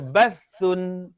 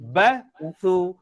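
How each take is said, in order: First: The word ends with an n sound. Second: The word ends with a vowel. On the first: The speaker calls it wrong. "Dia tak baca bathun" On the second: The speaker calls it right. "Tapi dia baca dengan"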